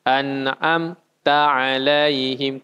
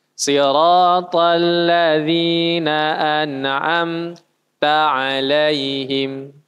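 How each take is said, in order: First: The mim in "an'amta" cut short and run straight into the next letter, no stop; rushed mim. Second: A short stop right after the mim in "an'amta alaihim", slow chant; pause after mim. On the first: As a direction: slide from "an'amta" straight into "alaihim". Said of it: "Atau langsung". (mim pada "an'amta" langsung ditarik ke huruf berikutnya) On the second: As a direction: break the recitation briefly after the mim. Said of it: "Stop sejenak". (berhenti sejenak setelah mim, bacaan yang salah) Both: Shown as a demonstration.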